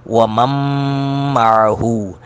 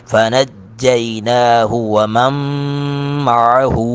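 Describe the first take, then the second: First: وَمَن مَّعَهُ repeated with the merged nasal مّ; idgham with ghunna. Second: وَمَن مَّعَهُ with نون merged into a nasal held مّ; idgham with ghunna. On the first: Teacher repeats the ghunna example for students. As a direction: hold the ghunna on مَّعَهُ again. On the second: Teacher demonstrating idgham ghunna, slow recitation. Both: Shown as a demonstration. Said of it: "وَمَن مَّعَهُ کو پڑھیں گے".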